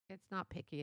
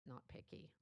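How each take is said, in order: First: Said in the usual way. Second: Softer, whispered "not picky"; whispered aside. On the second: Shown as a demonstration. Repeats the key phrase twice.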